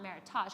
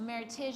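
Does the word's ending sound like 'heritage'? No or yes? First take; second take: no; yes. First: The ending does not sound like heritage. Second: The ending sounds like the end of heritage. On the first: The speaker calls it wrong. "not meritage" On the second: The speaker calls it right. "meritage is how you pronounce it, because it's a merriment of two heritages"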